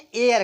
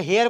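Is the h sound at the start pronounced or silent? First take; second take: silent; pronounced. First: The word begins with a vowel, no h. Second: The word begins with an h sound. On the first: The speaker calls it right. "एन एयर कहेंगे" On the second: The speaker calls it wrong. "हेयर को"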